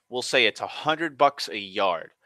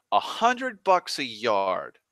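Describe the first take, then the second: First: Said in the usual way. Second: "A hundred bucks a yard" said slowly, each word weighted; slow emphatic repeat. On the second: Shown as a demonstration. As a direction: lean on it slowly to make the figure land. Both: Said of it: "I'll say this".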